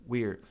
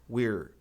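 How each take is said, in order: The two takes are said the same way.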